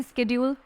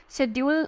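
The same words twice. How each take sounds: First: शेड्यूल starting with a hard sk; preferred pronunciation. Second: No k sound in शेड्यूल; alternative pronunciation. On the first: Teacher giving the proper pronunciation, शेड्यूल said with sk. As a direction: sound the k in शेड्यूल, as sked-yool. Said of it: "होता है इसका pronunciation". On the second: Teacher showing how some people say it, शेड्यूल without the k. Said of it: "बोलते हैं कुछ लोग". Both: Shown as a demonstration.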